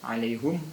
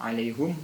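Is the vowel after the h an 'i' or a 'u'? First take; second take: u; u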